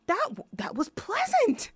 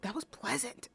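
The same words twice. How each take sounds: First: High mock teacher voice, pitched way up; a hammed-up high imitation of the violin teacher; imitating the teacher. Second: The teacher's line, softer and understated; soft, deadpan take of the teacher's words; quiet imitation. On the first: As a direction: parrot the teacher in a high put-on voice. Teacher's odd compliment retold. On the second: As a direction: say it softly, deadpan. Teacher's line retold once more.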